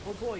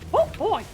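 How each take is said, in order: First: It is said in the speaker's ordinary voice. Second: It is said in a put-on character voice.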